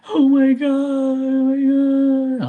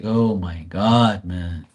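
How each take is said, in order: First: Very high, slow drawn-out fretting; panicky mom voice. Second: Low, slow fed-up groan; exasperated. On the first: Retold or imitated. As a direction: mimic a panicking parent. Mocking parents' panic. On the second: Real, not acted. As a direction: sigh it out, worn down. His own exasperated reply.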